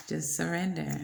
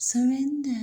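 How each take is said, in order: First: Said in the usual way. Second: Higher, lilting surrender; mock sing-song. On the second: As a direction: croon it up high. Playful high sing-song.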